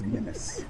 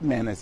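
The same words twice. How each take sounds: First: It sounds different from the word menace. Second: It sounds just like the word menace. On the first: The speaker calls it right. "it's menace" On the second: The speaker calls it wrong. "It's not menace"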